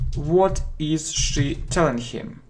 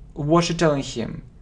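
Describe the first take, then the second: First: "What is" is said as two full words. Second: "What is" is contracted to "what's".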